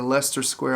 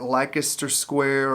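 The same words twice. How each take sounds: First: Leicester said as LES-ter, two syllables; alternative pronunciation. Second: Leicester said as spelled, in three syllables; unsure, literal reading of Leicester; spelling-based pronunciation. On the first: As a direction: shorten Leicester to sound like Lester. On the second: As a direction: sound out every syllable of Leicester. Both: Shown as a demonstration. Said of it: "I'm not sure how to say it".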